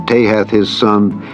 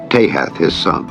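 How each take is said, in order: Both takes have the same delivery.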